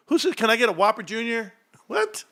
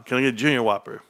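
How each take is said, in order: First: High, squeaky-pitched scoffing quote; mock the wrong order way up high; mock disbelief. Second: Said in the usual way. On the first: Streamer mocking those who say Whopper Junior, high disbelief. Mocks the other word order.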